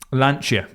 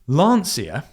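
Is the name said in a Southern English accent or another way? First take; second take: other; Southern English. First: It is said without the Southern English accent. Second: It is said in a Southern English accent. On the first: The speaker calls it right. "as I've been corrected" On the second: The speaker calls it wrong. "when I say it with my Southern Surrey accent"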